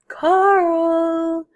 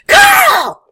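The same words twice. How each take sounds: First: It is called softly and quietly. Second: It is called in a sharp, nagging voice.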